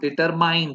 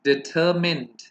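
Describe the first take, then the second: First: The last syllable sounds like 'mind'. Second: The last syllable sounds like 'mend'. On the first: The speaker calls it wrong. "But it's not डिटरमाइंड" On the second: The speaker calls it right. "It's डिटरमिन्ड"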